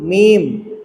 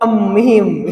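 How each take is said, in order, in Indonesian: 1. Nama hurufnya langsung diucapkan tanpa awalan. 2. Ada bunyi "e" sebelum nama hurufnya. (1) "cukup aja kita bacanya ya" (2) "Pakai e, pakai e"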